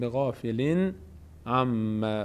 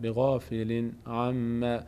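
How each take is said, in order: Both takes have the same delivery.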